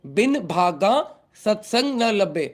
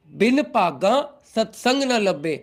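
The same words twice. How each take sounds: First: "भागा" in Hindi accent, with breathed bh. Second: "भागा" in Punjabi accent, opening like "paga". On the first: Teacher repeating the line for non-Punjabi devotees, in Hindi accent. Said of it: "Hindi accent में बोल रहा हूँ". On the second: Teacher dictating the shabad line to devotees, in Punjabi accent. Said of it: "I can use Punjabi accent also". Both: Shown as a demonstration.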